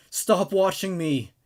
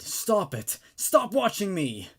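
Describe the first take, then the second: First: Screamed. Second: Shouting. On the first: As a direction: drag out each word in a frantic scream. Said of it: "screamed Lizzie". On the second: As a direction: yell at the vision to stop. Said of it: "Lizzie shouted". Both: Acted.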